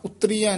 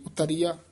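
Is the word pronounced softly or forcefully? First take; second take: forcefully; softly. First: The word is pronounced with force and weight. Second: The word is pronounced softly and lightly. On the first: The speaker calls it wrong. "उतरिया नहीं कहना" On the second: The speaker calls it right. "उतरिया पोला ही बोलना"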